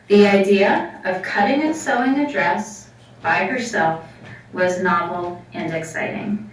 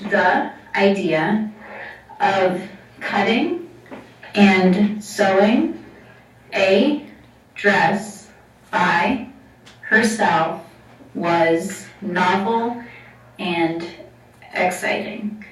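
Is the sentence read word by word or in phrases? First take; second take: phrases; word by word. First: Words are grouped into smooth, natural phrases. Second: Each word is read separately, like a robot.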